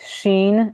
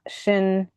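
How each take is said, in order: First: The vowel is long, rhyming with 'teen'. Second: The vowel is short, rhyming with 'tin'. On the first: The speaker calls it right. "It's Sheen" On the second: The speaker calls it wrong. "It's not Shin"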